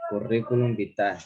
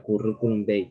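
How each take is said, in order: First: Said in the usual way. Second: "vitae" said shortened, ending in an "ei" glide; Latin term pronunciation. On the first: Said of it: "que se pronuncia". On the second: Shown as a demonstration. Student showing classmates how the Latin is pronounced, "vitae" ending in "ei". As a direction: say "vitae" with a closing "ei" sound. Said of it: "que se pronuncia curriculum vitae".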